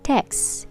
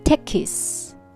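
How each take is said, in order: First: The word is said with one syllable. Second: The word is said with two syllables. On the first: The speaker calls it right. "So it is one syllable word" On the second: The speaker calls it wrong. "If you say tekis, that becomes two syllable word"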